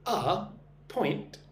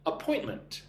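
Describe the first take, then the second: First: "Appointment" slowly split as uh, point, ment; syllable by syllable. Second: Said in the usual way. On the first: Shown as a demonstration. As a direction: sound out "Appointment" in three separated syllables. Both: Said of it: "Listen and repeat after me".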